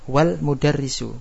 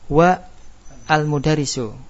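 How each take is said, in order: First: The 'wa' links straight into 'l' without a break. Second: A glottal stop separates 'wa' from 'al'. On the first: The speaker calls it right. "Namun yang dibaca wawunya saja wal mudarrisu" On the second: The speaker calls it wrong. "bukan wa al-mudarrisu"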